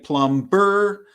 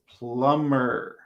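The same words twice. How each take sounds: First: The B sound is pronounced. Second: The B sound is silent. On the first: The speaker calls it wrong. "So we don't say plumber" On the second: The speaker calls it right. "And the B is silent"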